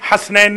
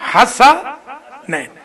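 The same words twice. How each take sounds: First: The s is followed directly by n. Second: A short a vowel follows the s. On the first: The speaker calls it wrong. "हसनैन नहीं" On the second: The speaker calls it right. "सीन के ऊपर फतह है, जबर है।"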